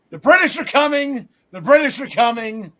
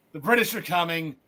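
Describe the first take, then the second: First: Loud mock town-crier warning; hammed-up colonial rider shouting the warning; Paul Revere alarm call. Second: A lightly voiced last Paul Revere cry, winding down; fading Paul Revere call. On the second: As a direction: let the alarm trail off. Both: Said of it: "was reminded of Paul Revere".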